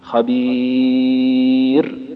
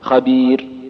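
First: The long vowel is held a moderate time. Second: The long vowel is held briefly. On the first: "واربع" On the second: "حركتين"

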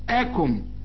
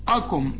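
First: The hamza is said light and thin. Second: The hamza is said heavy and thick. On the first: The speaker calls it right. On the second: The speaker calls it wrong.

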